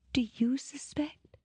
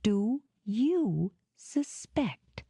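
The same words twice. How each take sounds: First: Breathy high whisper; tearful whisper. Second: Slow, cool, perfectly even; controlled voice. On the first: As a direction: whisper it through tears. Fake-tearful whisper before switching. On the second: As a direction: drop the act, cool and measured. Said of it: "in a perfectly controlled voice". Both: Acted.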